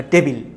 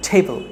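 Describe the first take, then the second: First: Said in the usual way. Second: টেবল with an aspirated t and a swallowed second vowel; English pronunciation. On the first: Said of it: "না". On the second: Shown as a demonstration. Teacher giving the right form of table. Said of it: "সঠিক উচ্চারণটি হচ্ছে টেবল".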